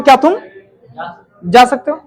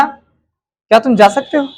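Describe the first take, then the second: First: "क्या तुम" clipped off, a pause, then "जा सकते हो?" rising as a dare; challenging question. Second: Slow, drawn-out "क्या तुम जा सकते हो?" rising on "जा"; slow polite question. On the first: Teacher shows the class a doubting, challenging way to ask. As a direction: question whether they can even manage it. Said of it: "मैं जब ऐसे बोल रहा हूं". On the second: Teacher demonstrates the first way to the class, slow and gentle. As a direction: ask gently and slowly, letting "जा" rise. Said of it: "मैं तीन तरीके से बोलूंगा". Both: Shown as a demonstration.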